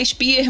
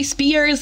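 First: Spear with no s at the end; correct name Spear. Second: Spears with a final s sound; wrong name Spears. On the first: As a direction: say Spear, stopping cleanly on the r. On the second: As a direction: say Spears ending in a hissed s. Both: Shown as a demonstration. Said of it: "meu nome não é Spears".

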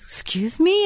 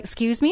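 First: High, questioning imitation of a child; little boy. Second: Mildly timid imitation of a little boy; cowering child. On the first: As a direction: pitch it up like a small boy asking. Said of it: "And he goes". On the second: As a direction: shrink back a little on the question. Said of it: "he kinda cowered down a little bit".

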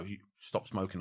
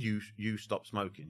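First: Soft embedded command. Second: Much softer, slowed hypnotic murmur; soft embedded command. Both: Shown as a demonstration. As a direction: slip the command in under your breath. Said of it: "on the whisper".

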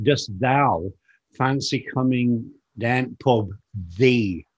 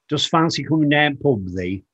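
First: Yorkshire "Dost thou" phrase in separated chunks; biblical Yorkshire, spelt out. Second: Imitating father's broad Yorkshire speech; father's Yorkshire dialect. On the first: Shown as a demonstration. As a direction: set "thee" apart after a pause, like old scripture. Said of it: "when I said biblical". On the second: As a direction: quote Dad in thick Yorkshire dialect. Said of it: "the way that he talked".

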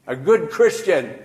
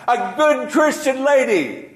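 First: Said in the usual way. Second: "good Christian lady" lifted much higher and louder, GOOD hit hard; emphatic repeat. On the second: Acted. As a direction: cry out "a good Christian lady" high, stressing GOOD. Repeated phrase, emphatic second take.

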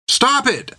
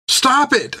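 First: High-pitched, urgent demand; Finn demanding. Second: Very high-pitched plea; Finn pleading. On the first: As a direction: demand sharply that the beating end. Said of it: "she demanded". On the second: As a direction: plead for the beating to end. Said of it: "she pleaded". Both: A narrator's reading.

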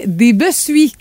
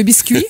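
First: "bessuis" in place of biscuits; mispronounced biscuits. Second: Said in the usual way. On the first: Shown as a demonstration. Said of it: "Le mot que les gens prononcent mal". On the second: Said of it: "au lieu de biscuits".

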